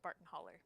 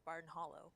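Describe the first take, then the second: First: The second word ends in an 'er' sound. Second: The second word ends in an 'oh' sound. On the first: "It is always Barton Holler" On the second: "he will not pronounce it Barton Hollow"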